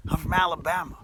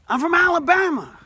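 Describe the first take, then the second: First: Said in the usual way. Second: "Alabama" called out much higher and louder; "Alabama" hollered high with a falling finish; proud shout. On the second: Shown as a demonstration. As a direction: belt out "Alabama" like a proud cheer.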